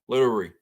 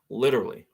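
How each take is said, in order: First: The word ends like 'literary', with an 'ary' ending. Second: The word ends like 'literally', with an 'ally' ending. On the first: The speaker calls it wrong. "that's what you said" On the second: The speaker calls it right. "That's how you pronounce it"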